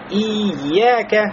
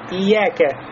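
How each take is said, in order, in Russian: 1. Удвоенное y удерживается и растягивается. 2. Удвоенное y сокращается до одного y. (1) "буксуют на это слово и говорят ияке, ияке" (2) "в прослабление, говорят просто ияке, ияке, как будто одна буква я"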